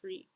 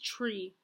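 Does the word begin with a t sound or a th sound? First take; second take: th sound; t sound. First: The word begins with a soft th sound. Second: The word begins with a plain t sound. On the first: The speaker calls it right. "she should be saying three" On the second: The speaker calls it wrong. "she replaces the intradental voiceless fricative sound with the alveolar voiceless stop T"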